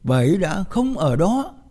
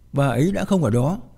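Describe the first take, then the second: First: The stress falls on the last word đó. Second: No word in the sentence is stressed. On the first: It carries yet another meaning. "mà không nhấn mạnh vào từ nào ngoài từ sau cùng" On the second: It is a plain statement of fact. "mà không nhấn mạnh vào một từ nào cả"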